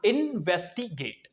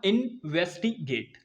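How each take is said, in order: First: इन्वेस्टिगेट said slowly, broken into three syllable chunks; slow three-part split of इन्वेस्टिगेट. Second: इन्वेस्टिगेट said slowly, broken into two syllable chunks; slow two-part split of इन्वेस्टिगेट. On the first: Teacher correcting the split of इन्वेस्टिगेट for students, slow three-syllable break. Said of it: "तीन syllable break, break कर लेना". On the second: Teacher splitting इन्वेस्टिगेट for students, slow two-syllable break. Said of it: "दो syllable break कर लेना". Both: Shown as a demonstration.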